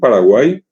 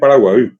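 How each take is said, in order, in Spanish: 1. La vocal final es una 'i' española sencilla. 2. La vocal final es una vocal central guaraní. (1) "mal escritos y pronunciados hoy" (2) "cuya verdadera pronunciación es Paraguay"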